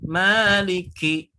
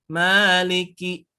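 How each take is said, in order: No difference in how they are said.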